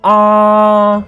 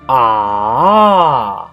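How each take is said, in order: First: The pitch stays high and level. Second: The pitch dips down and then rises. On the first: "the first tone is ah. Remember the pitch is very high" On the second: "third tone, first down and then up"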